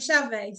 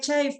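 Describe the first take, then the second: First: The name is pronounced the Portuguese way. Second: The name is pronounced the English way. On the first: This is how people in Portugal say it. "everyone pronounces my name Chave" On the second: This is how the name is usually said. "it's actually [name]"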